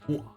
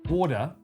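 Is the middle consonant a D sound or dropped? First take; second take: dropped; D sound. First: The middle T sound is dropped entirely. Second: The middle consonant is a soft D sound. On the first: This is how British speakers say it. "we say water. No T" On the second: This is how Australian speakers say it. "Place T with D for Australian"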